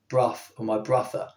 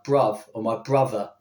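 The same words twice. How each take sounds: First: The sounds are unvoiced, like f. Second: The sounds are voiced, like v. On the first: "they won't say bruv with a F at the end" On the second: "They'll say something like"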